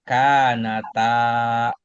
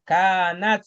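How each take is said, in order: First: The vowel after t is held long. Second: There is no vowel after the t. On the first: The dual alif is present. The speaker calls it right. "Panjang dikit ya" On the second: The dual alif is lost entirely. The speaker calls it wrong. "apalagi kalau misalkan taknya disukun"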